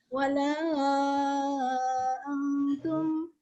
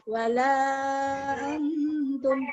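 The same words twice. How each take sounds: First: The vowel in 'la' is stretched much longer. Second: The vowel in 'la' is held for two beats. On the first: "Panjangkan lagi" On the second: "Dibaca dua"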